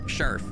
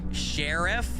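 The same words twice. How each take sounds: First: It is said in a relaxed regional pronunciation. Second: Every sound is carefully and clearly enunciated. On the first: This is how the speaker's family says it. "My family would just say sheriff" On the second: This is the standard pronunciation. "I'm going to say it correctly ... I'm over enunciating it a little bit"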